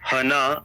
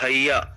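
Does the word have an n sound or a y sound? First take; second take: n sound; y sound. First: The word is said with an n sound. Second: The word is said with a y sound. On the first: The speaker calls it wrong. "So it's not हना" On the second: The speaker calls it right. "it is हैया, it's या"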